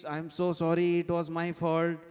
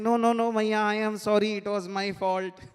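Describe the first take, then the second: First: Louder, insistent mock apology; hammed-up motherly sorry; acted apology. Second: Loud, higher hammed-up apology; emphatic acted child's protest. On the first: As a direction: plead forgiveness as the mother, raised voice. Mother's tearful apology in retelling. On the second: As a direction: insist over the other, loudly taking the blame. Child outdoing mother's apology in retelling.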